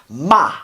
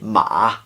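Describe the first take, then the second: First: The pitch is sharp and forceful, like bam. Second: The pitch dips down and comes back. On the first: "the fourth tone is like bam" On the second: "the third tone would be ma. There's a dip in it"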